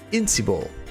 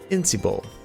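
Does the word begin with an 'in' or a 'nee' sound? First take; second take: in; in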